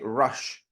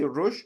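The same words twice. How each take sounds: First: The word ends in a hushing sh sound. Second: The word ends in a hissing s sound. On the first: The speaker calls it right. "we say rush" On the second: The speaker calls it wrong. "we don't say rush"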